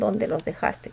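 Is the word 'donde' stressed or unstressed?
unstressed. The word 'donde' is said without stress. It states where the documents are. The speaker calls it right.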